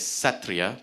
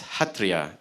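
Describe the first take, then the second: First: The word begins with an S sound. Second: The word begins with an H sound. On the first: The speaker calls it wrong. "it looks like it's spelled with an S, and it should have been pronounced as Satriya" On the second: The speaker calls it right. "but I'm told that it's pronounced as Hatriya"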